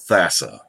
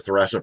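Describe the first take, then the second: First: The name has no R sound after the first consonant. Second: The name has an R sound after the first consonant. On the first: The speaker calls it right. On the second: The speaker calls it wrong.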